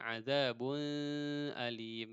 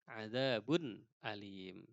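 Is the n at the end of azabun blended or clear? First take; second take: blended; clear. First: The final n blends into the next word. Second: The final n is sounded clearly and distinctly. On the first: The speaker calls it wrong. "Jangan azabun alim. Itu salah" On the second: The speaker calls it right. "harus jelas"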